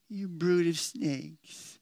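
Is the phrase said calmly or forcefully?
calmly. The phrase is said in a mild, calm way. The speaker calls it wrong. "No, he didn't say it like that"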